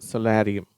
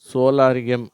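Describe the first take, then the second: First: The first vowel is a short o sound. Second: The first vowel is a long o sound. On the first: The speaker calls it right. "இதனுடைய உச்சரிப்பு அதுதான்" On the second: The speaker calls it wrong. "சோலாரியம் அப்படின்றது இல்லை"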